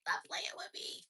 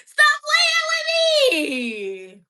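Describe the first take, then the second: First: Unvoiced whisper. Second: Sung, high, slow laughing wail; sung, belt it high while laughing and crying; wailed singing. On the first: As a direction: hush it almost silently. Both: Real, not acted.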